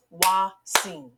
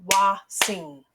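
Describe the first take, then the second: First: Wa-sing split into two clear beats; segmented syllables. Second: Wa-sing, spoken as Wa then sing, t dropped; as pronounced. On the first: Teacher segmenting a word for kids, two beats. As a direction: clap it out, Wa, sing. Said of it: "When I segment the word Watson, I hear two syllables". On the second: Teacher showing true pronunciation to children, t dropped. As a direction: say Watson the way it sounds, Wa-sing. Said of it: "clap the syllables the way it's pronounced". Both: Shown as a demonstration.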